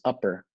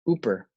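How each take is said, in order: First: The first vowel is a short 'uh' sound. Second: The first vowel is a long 'oo' sound. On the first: It is how many classmates say it. "A lot of people in class have pronounced it upper" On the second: It echoes how locals say Yooper. "why I pronounce it Ooper"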